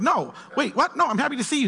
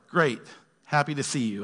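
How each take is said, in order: First: High-pitched, insistent backpedalling; acted, startled earnestness; flustered protest. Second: Understated, level delivery that could pass for snark; dry, ambiguous politeness; snarky-sounding text. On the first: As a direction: protest that you were misunderstood and truly meant it. Acting the misread texter protesting. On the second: Acted. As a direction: read it like an unpunctuated text message. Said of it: "Why the snarky tone?".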